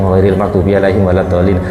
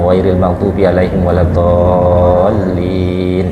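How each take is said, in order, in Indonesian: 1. Vokal panjang dan huruf L bertasydid dibaca pendek. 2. Vokal panjang dan huruf L bertasydid dibaca panjang. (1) "Wis ilang kabeh" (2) "Yo masih yo cepet"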